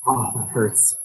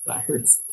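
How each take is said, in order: First: Said in the usual way. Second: Whispered wince. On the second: Real, not acted. Watching miners crushed.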